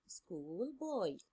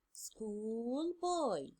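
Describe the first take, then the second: First: Said in the usual way. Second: Put-on "School boy" said with a drawn-out, stressed "boy"; model answer. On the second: Shown as a demonstration. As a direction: hold the "oi" in "boy" as the teacher's example. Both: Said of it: "Where is the word with the long oi sound?".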